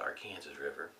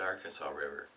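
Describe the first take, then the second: First: The name is said the Kansas way. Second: The name is said the non-Kansas way. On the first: The speaker calls it right. "if you're in Kansas, ... it's the Arkansas River" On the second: The speaker calls it wrong. "It's not the Arkansas River"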